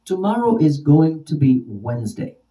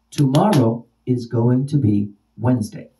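First: Said in the usual way. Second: TOMORROW loud, then a pause; stress on TOMORROW. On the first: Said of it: "use it in a sentence". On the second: Shown as a demonstration. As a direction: punch "tomorrow" and set it apart. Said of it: "if I'm emphasizing the word tomorrow".

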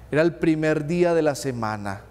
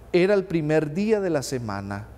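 Both takes have the same delivery.

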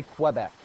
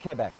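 First: Quebec said as kwuh-BECK, with a clear w after the k; the anglicized Quebec, kw at the start and stress on BECK; wrong English pronunciation. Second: Quebec said as keh-BEK, a plain k with no w; the local Quebec, a soft k and a light final BEK; French pronunciation. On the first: Teacher showing the class the wrong way, Quebec with a kw sound. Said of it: "they do not say Quebec". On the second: Teacher showing the class the correct way, Quebec with no w. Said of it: "that is the way it is pronounced". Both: Shown as a demonstration.

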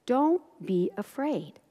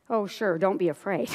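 First: Slow, soft, measured words; gentle reassurance. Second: Dry, sarcastic echo; sceptical echo. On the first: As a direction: reassure softly, one word at a time. Voicing Jesus reassuring the father. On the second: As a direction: throw the comfort back in disbelief. Doubting parent echoes Jesus's words. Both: Acted.

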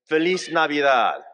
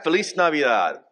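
First: "Feliz Navidad" in Spanish, said as a greeting. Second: "Feliz Navidad" in Spanish, raised to lead the room; Spanish greeting, leading. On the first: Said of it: "we say". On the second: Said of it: "you wanna try that". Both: Shown as a demonstration.

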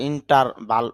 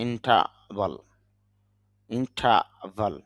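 First: ইন্টারভাল with a clear r; wrong way: ইন্টারভাল sounding the r. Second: ইন্টারভাল as ইন্টাভাল, no r; right way: ইন্টারভাল slow, r dropped; without the r. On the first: Teacher showing students the wrong ইন্টারভাল with the r. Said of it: "যদি আমরা ইন্টারভাল এরকম বলি না". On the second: Teacher giving the correct ইন্টারভাল with no r. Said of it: "এরকম বলি না". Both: Shown as a demonstration.

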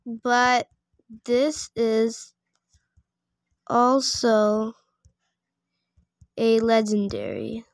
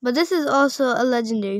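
First: Word by word, long pauses between; slow dictation. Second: Fast, run-on objection; quick protest. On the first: Player typing a reply about a legendary pet, slow dictation. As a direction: sound it out slowly while typing. Sounding out a typed message. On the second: Player protesting that the pet is legendary, quick protest. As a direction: argue it in one quick breath. Repeats the typed line in protest. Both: Real, not acted.

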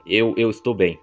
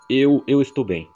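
First: Said in the usual way. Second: Flustered stammer. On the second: Acted. Chosen line acted out again.

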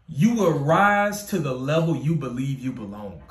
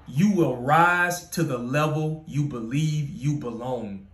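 First: Said in the usual way. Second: Slow, weighty repeat of the quote; slow emphatic repeat. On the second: Acted. Author repeating his own quote, slow and weighty. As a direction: let every word sink in. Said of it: "quote repeated slowly".

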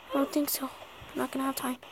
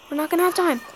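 First: Muttered worried aside; under breath. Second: Said in the usual way. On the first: Real, not acted. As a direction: say it almost to yourself. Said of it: "repeated louder". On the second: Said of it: "repeated quieter".

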